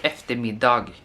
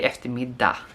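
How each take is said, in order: First: The final G sound is pronounced. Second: The final G sound is dropped. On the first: The speaker calls it wrong. "no one pronounce it as eftermiddag" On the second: The speaker calls it right. "We don't pronounce the G"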